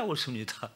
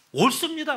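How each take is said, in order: First: Said in the usual way. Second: High, loud defiant "옳습니다"; defiant retort. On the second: Retold or imitated. Jonah defiantly shouting back at God. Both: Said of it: "하나님 앞에 막 대드는 거예요".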